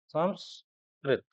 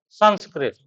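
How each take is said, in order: First: The nasal before the s sounds like m. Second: The nasal before the s sounds like n. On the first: "many where it is also spoken and written as Sanskrit" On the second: "S A N S K R I T and it is pronounced as Sanskrit"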